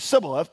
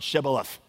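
First: The word begins with a plain 's' sound. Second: The word begins with a 'sh' sound. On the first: The speaker is an Ephraimite. The speaker calls it wrong. "because he could not pronounce it right" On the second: The speaker is not an Ephraimite. The speaker calls it right. "Then say the word Shibboleth"

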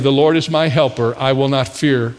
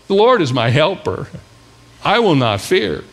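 First: It is read in a plain, ordinary way. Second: It is read in a bold, forceful way.

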